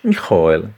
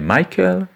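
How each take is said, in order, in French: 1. Le nom est prononcé avec une prononciation yiddish. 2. Le nom est prononcé avec une prononciation anglaise. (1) "en yiddish Michael" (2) "en anglais Michael"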